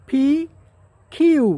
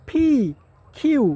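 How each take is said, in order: Both takes have the same delivery.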